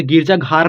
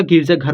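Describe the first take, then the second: First: गिरजा घार with long aa in घार; wrong long vowel. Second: गिरजा घर with short a in घर; correct short vowel. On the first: Teacher rejecting the literal reading, long aa in घार. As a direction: stretch the vowel of घार to ghaar. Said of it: "गिरजा घार नहीं होता". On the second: Teacher giving students the right reading, short a in घर. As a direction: keep घर short as ghar. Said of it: "गिरजा घर होता है". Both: Shown as a demonstration.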